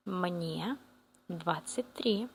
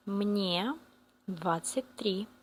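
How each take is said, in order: Both takes have the same delivery.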